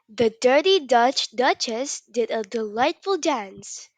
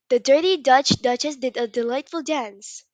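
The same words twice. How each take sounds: First: It is said at a slow pace. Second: It is said at a fast pace.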